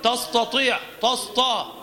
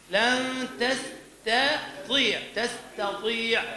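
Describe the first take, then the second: First: تستطيع said louder with a heavy emphatic ta; careless heavy ta. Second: تستطيع slow with a thin light ta; correct thin ta. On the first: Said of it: "إذا ترك نفسه سيقول". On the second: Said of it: "لكن إذا ترك نفسه". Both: Shown as a demonstration.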